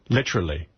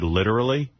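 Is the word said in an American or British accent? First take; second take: British; American. First: It is said in a put-on British accent. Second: It is said in a plain American accent.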